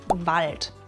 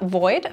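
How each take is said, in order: First: The L is pronounced after a plain a. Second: The L becomes a vowel, sounding like oi.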